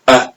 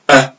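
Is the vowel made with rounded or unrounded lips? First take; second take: unrounded; unrounded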